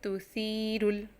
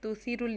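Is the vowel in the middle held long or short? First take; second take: long; short. First: The middle vowel is drawn out long. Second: The middle vowel is short and clipped. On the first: The speaker calls it right. "इसको लंबा पढ़ रहे हैं" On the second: The speaker calls it wrong. "तुसीरुल नहीं पढ़ेंगे"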